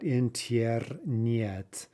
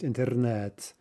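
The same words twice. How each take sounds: First: The vowel after the t has a y sound. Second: The vowel after the t has no y sound. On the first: The speaker calls it wrong. "Not internet" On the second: The speaker calls it right. "That's pronounced internet, right? ... There's no y sound"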